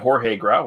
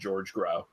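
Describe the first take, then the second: First: The first name is not said like 'George'. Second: The first name is said like English 'George'. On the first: The speaker calls it right. "I got Jorge Grau right" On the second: The speaker calls it wrong. "otherwise I just would have said George Grau"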